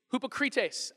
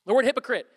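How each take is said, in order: First: "hypocrites" said as Greek hoo-po-KREE-tes; Greek pronunciation. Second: Said in the usual way. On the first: Shown as a demonstration. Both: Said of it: "I am definitely mispronouncing that".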